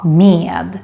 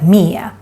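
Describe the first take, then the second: First: The word is said fully, at normal speed. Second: The word is said fast and reduced.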